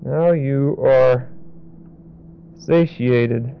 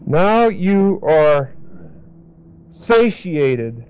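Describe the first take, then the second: First: Slow and lower, "now" stressed; slow, softer repeat. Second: Very slow "now you are", then "satiated"; slow emphasis. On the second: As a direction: draw out each word for meaning. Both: Shown as a demonstration. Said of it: "what that really means is".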